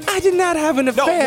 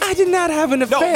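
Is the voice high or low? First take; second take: high; high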